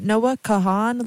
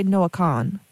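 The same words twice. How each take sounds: First: [name] said in two syllables, "ka-HAN"; two-syllable pronunciation. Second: [name] squeezed into one syllable, like "Kahn"; condensed pronunciation. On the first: Radio host asking listeners how to say it, "[name]" in two syllables. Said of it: "do we pronounce it as two syllables". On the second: Host showing how some people say it, "[name]" as one syllable. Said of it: "they just condense it". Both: Shown as a demonstration.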